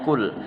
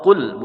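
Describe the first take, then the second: First: "kul" with an ordinary front k; "kul" with a plain k; wrong kaf sound. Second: "kul" with a deep back-of-throat q; "kul" said as qul; correct qaf sound. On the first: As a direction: start "kul" as kaf, not qaf. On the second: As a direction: start "kul" as Arabic qaf, far back. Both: Shown as a demonstration. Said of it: "bukan bacanya kul".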